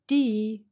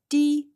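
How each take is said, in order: First: The tone falls from high to mid. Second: The word is said on a high level tone. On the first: It means water. "high to medium" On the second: It means tongue.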